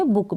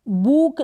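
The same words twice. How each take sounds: First: बुक with a short, quick u; short vowel. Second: बुक with a long, drawn-out oo; wrong long vowel. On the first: Teacher giving learners the correct reading, short u in बुक. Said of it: "हम इसको पढ़ेंगे बुक". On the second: Teacher showing learners the misreading, long oo in बुक. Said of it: "बुक नहीं पढ़ेंगे". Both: Shown as a demonstration.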